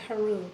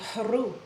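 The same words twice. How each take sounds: First: The h is light, from the upper throat. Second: The h is forceful, pushed up from deep. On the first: The speaker calls it wrong. "the word is coming from up here at the top of the throat" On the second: The speaker calls it right. "the h forceful sound coming up"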